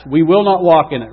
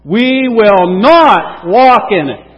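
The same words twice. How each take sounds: First: Said in the usual way. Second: "not" drawn out and punched loudly; stress on NOT. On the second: Shown as a demonstration. Preacher drills congregation as Israel, heavy loud stress on "not". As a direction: shout it slowly, leaning hard on "not". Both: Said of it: "Let's emphasize the not".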